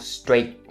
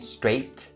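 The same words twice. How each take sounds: First: The final T is stopped, not released. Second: The final T is clearly released. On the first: The speaker calls it right. "you should just stop it" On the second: The speaker calls it wrong. "instead of saying"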